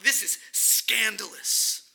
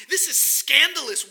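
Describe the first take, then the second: First: Slowed right down, every word weighed; slow, deliberate. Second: Loud, raised pitch, a cry of outrage; emphatic exclamation. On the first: Preacher repeating to the congregation, slow and deliberate. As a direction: say it slowly and let it land. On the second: Preacher telling the congregation it is scandalous, loudly. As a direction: belt out the word scandalous. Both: Acted.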